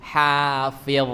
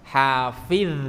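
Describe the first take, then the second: First: The last consonant is a thick, heavy sound. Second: The last consonant is a light d-like sound. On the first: The speaker calls it right. "kalau huruf dha yang tebal" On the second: The speaker calls it wrong. "ini huruf dal misalnya"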